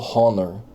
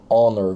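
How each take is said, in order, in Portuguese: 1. A palavra começa com h pronunciado. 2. A palavra começa com h mudo.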